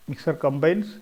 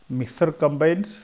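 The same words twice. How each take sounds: The two takes are said the same way.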